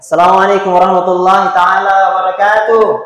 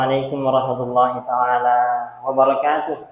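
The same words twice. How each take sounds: First: It is said loudly and forcefully. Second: It is said softly, in a low tone.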